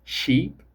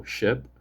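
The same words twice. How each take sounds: First: Sheep with a long ee, rising higher; lifted long-vowel "sheep". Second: Ship with a short, lax i; crisp short-vowel "ship". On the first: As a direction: say "sheep" with a tense ee, pitched up. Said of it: "have completely different meanings". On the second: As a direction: say "ship" with a brief relaxed vowel. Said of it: "For example". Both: Shown as a demonstration.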